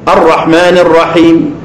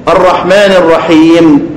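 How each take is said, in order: The two takes are said the same way.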